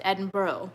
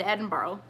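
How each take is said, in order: First: Edinburgh said as ED-in-buh, no r at the end; Edinburgh clipped to ED-n-boh, the way her British friend said it; copying a friend's Edinburgh, ED-n-boh. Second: Edinburgh said as ED-in-burrow, with a full r-oh ending; Edinburgh spelled out as ED-en-bro, the tourist way; the mispronounced Edinburgh, ed-en-BRO; her old wrong way. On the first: Retold or imitated. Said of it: "like that". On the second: Shown as a demonstration. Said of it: "I said Edinburgh".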